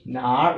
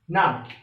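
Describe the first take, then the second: First: The tone dips low and then rises. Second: The tone falls sharply from high to low. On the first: It asks where something is. "Third rule, which means we are asking question" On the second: It answers that something is there. "the fourth tune"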